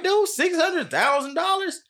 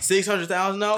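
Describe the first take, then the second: First: Much higher, slow disbelief; shocked disbelief, much higher and slow; incredulous. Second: Higher repeat of disbelief; amazed repeat, higher; surprised. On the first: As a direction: stretch it out in shock. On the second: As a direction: ask again, still amazed. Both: Real, not acted. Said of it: "I mean, bruh".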